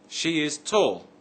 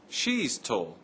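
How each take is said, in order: First: 'She is' is said as two full words. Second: 'She is' is shortened to one syllable. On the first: "I can say" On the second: "I can also say"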